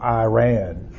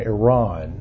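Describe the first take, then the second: First: Iran is said with the talk-radio pronunciation. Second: Iran is said with the usual pronunciation.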